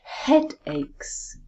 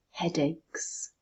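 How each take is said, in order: First: HEADaches, first syllable punched high; exaggerated first-beat stress on Headaches. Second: Said in the usual way. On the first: Shown as a demonstration. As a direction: hit "Head" in Headaches high, let "aches" fall. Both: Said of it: "It's on the first syllable".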